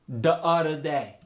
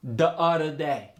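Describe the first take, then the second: First: The th sounds are said as d. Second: The th sounds are said as d.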